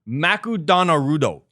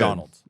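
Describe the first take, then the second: First: It is said with Japanese syllables and vowels. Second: It is said with ordinary English sounds. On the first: This is the name used in Japan. "they changed the name to Makudonarudo" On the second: This is the original name. "instead of"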